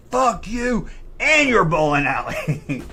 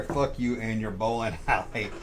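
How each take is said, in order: First: Loud, high, drawn-out mock scream; retold scream. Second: Said in the usual way. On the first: Angry customer yelling at the bowling alley, re-enacted scream. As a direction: re-enact screaming it, stretched out slowly. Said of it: "I screamed it loud".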